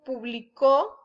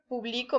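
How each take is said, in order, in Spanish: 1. El acento está en la última sílaba. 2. El acento está en la sílaba del medio. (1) "es en pasado" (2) "no lleva acento"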